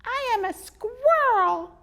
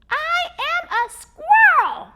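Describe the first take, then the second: First: High, slow, loud squeaky squirrel. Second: High, slow, much louder squeaky yell; squeaky squirrel shout. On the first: Squirrel correcting the boy, slow and squeaky. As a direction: insist on it, squeaky and firm. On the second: Squirrel yelling at the boy, squeaky shout. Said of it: "he shouted again in his squeaky voice". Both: Acted.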